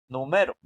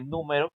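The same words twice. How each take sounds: First: The stress is on the middle syllable. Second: The stress is on the first syllable. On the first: The speaker calls it right. "que la sílaba más fuerte esté en la M" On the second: The speaker calls it wrong. "número tiene tilde en la U"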